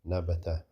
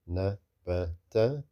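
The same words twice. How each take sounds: First: The word is said quickly. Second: The word is said slowly. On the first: "or fast" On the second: "Whether you read it slow"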